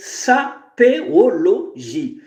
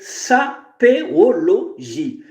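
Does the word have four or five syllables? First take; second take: five; five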